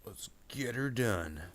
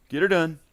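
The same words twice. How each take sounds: First: Slow, higher-pitched catchphrase; drawn-out catchphrase. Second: Loud, high catchphrase yell; playful catchphrase shout. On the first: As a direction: stretch the words out playfully. Catchphrase, said then shouted. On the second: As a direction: belt it out high for fun. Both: Pretend.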